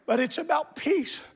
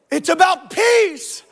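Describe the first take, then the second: First: Soft, restrained aside to the congregation; hushed preaching. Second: Louder, slow, emphatic proclamation; preacher's shout. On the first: Preacher says it softly, then shouts. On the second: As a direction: shout it out, stretching the last word. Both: Real, not acted.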